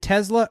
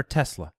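First: "Tesla" with a buzzing Z in the middle; Z pronunciation. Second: "Tesla" with a hissed S in the middle; S pronunciation. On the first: Cohost checking how the brand is said, "Tesla" with a Z sound. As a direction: say "Tesla" as TEZ-luh. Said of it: "As though it's a Z". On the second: Cohost checking how the brand is said, "Tesla" with an S sound. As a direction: say "Tesla" as TESS-luh. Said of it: "is it Tesla or Tesla". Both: Shown as a demonstration.

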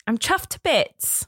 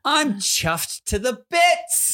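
First: Higher, slow British accent; put-on British, drawn out; corrected British phrase. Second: High, very slow, hammed-up British; big stretched British accent, pitched up; British accent attempt. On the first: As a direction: demonstrate the phrase in careful British. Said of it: "I don't think there's a". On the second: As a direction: draw it out in exaggerated British. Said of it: "give our best shot of doing it". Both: Shown as a demonstration.

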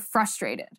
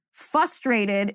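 First: Said in the usual way. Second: "frustrated" said with a slipped r sound; mispronounced frustrated. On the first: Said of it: "instead of". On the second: Shown as a demonstration. Host demos how people mispronounce. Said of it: "when people say".

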